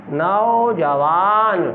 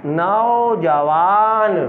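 First: नौजवान slow with a falling close; slow, settled नौजवान; slow final reading. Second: Drawn-out word for a class; slow blended word. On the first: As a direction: read नौजवान out slowly and end it down. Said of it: "teacher repeats word, falling close". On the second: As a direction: stretch each syllable of नौजवान slowly. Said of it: "teacher blends syllables slowly". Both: Shown as a demonstration.

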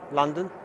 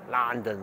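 First: Said in the usual way. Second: London said as "Lăndən", flat open vowel, falling; a deliberately rubbish Cockney London; bad Cockney accent. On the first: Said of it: "you guys know I'm rubbish at doing accents". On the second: Shown as a demonstration. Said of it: "sorry, that's the world's worst".

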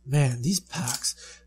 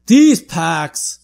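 First: Muttering. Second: Punched, loud frustration; louder complaint. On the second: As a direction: complain with force. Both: Real, not acted.

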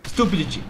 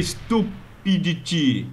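First: Said in the usual way. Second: Slow, drawn-out mock voice. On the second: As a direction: stretch the word out in a silly voice. Repeats the word in mock voice. (voz caricata lenta)

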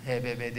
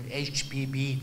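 First: Said in the usual way. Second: "H B B" said as English letters, "eych bee bee"; English letter names. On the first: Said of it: "H B B diyorlardı". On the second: Shown as a demonstration. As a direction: spell "H B B" the English way, "eych bee bee", not Turkish "he be be". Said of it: "Türkçem kötü benim".

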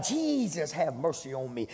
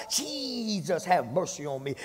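First: Crying out to Jesus. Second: Shouting to Jesus. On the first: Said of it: "he cried out". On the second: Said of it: "that man shouted so loud". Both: Retold or imitated.

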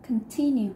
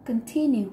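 First: "Continue" with TI stressed, falling at the end; teacher repeats "Continue" to drill the stress; stress on second syllable. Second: "Continue" with TI stressed and a falling tune; teacher drills the stress of "Continue"; stress on second syllable. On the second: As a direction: hit TI in "Continue", let it fall. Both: Shown as a demonstration. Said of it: "Trọng âm rơi vào âm thứ hai".

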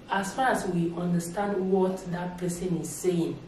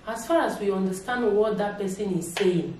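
Both takes have the same delivery.

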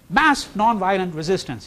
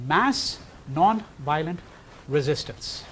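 First: Said in the usual way. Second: Mass stretched, resistance dropping away; slow emphasis on mass. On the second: Shown as a demonstration. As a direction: lay out mass non-violent word by word.

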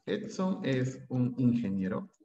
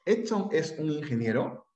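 First: "Edson es un ingeniero" said slowly, falling as a plain statement; statement tune. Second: "¿Edson es un ingeniero?" rising at the end to make it a question; question by intonation. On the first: Teacher contrasting a statement with the question form: slow falling tune. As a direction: drop the voice, no question lift. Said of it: "Si yo hago esto". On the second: Teacher showing Spanish questions need only intonation: rising tune. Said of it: "qué pasa si dejo igualito y como pregunta". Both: Shown as a demonstration.

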